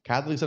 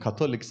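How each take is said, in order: First: It is said with an 'a' vowel. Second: It is said with an 'o' vowel. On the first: This is the usual, older way of saying it. "క్యాథలిక్స్ అని కాదు కదా" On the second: This is a newly adopted way of saying it. "మీరు కథోలిక్స్ అంటున్నారు"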